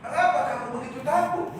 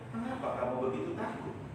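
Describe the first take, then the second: First: It is said in an angry tone. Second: It is said in a calm, gentle tone.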